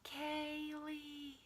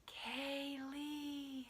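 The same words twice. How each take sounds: First: Soft, eerie call of her name; aisle calling again. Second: Soft, eerie, far-off call; a ghostly lure from the store aisle; aisle calling her name. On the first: The aisle calls her a second time, soft and eerie. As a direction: lure her in, like a ghost. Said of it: "And I heard it". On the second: Store aisle calls her name, soft and eerie. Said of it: "it was calling out to me". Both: Pretend.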